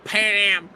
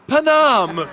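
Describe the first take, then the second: First: It is said in the speaker's normal voice. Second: It is said like the Hunger Games lady.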